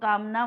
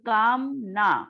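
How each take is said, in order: First: It is said continuously without a break. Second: It has a break between kaam and na. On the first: It means desire. "कामना हा शब्द जर मी सलग रीतीने उच्चारला" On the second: It means no desire. "काम आणि ना असा उच्चारला"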